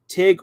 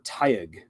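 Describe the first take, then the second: First: The name is said as one syllable. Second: The name is said as two syllables. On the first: "Tig is just one syllable" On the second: "Tyug seems to roll off my tongue better"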